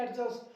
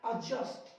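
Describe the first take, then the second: First: एडजस्ट with the D sounded; "ad-just", voicing the D in एडजस्ट; wrong pronunciation. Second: एडजस्ट with a silent D; correct pronunciation. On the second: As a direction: say एडजस्ट as "uh-just". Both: Shown as a demonstration. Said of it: "हम लोग गलत पढ़ते हैं".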